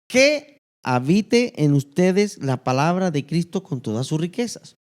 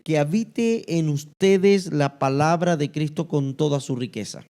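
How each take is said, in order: First: The word 'que' is given strong stress. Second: The verse is read without stressing 'que'.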